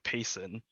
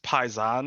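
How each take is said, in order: First: The first syllable sounds like 'pay'. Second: The first syllable sounds like 'pie'. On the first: The speaker calls it wrong. "I thought it was like payson" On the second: The speaker calls it right. "it's pronounced paisan"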